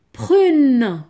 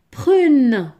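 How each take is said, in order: Both takes have the same delivery.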